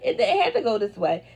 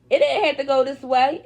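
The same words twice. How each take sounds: First: Said in the usual way. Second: "didn't" hit louder and higher, rising at the end; emphatic "didn't", said with a rise; stress on didn't. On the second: Shown as a demonstration. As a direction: lean hard on "didn't" and lift the end.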